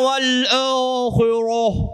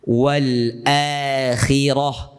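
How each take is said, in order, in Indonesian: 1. Bunyi kha itu berat dan tebal. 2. Bunyi kha itu ringan dan tipis. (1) "Tebal sampai terang langsung" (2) "Kha tu nipis, ra tu tebal"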